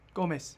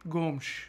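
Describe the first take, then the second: First: It is said with a Brazilian Portuguese pronunciation. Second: It is said with a European Portuguese pronunciation. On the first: "if you're Brazilian Portuguese, it's just Gomes" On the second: "that's the Portuguese, the Portugal Portuguese pronunciation"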